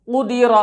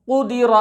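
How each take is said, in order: Both takes have the same delivery.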